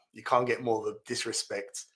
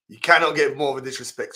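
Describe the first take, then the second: First: Said in the usual way. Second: "cannot" spelled out in full and hit louder; stress on cannot. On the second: Real, not acted. Streamer repeating to viewers, louder stress on "cannot". Repeats the line with more force.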